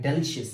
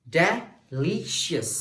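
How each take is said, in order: First: Said in the usual way. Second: "delicious" very slow in separate beats, de, LI, shus; syllable by syllable. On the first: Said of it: "इससे मेरी energy कम है". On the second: Shown as a demonstration. Teacher comparing syllable energy, "delicious" slowly split. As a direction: break "delicious" apart, holding the middle. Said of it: "मेरी energy बढ़ रही है".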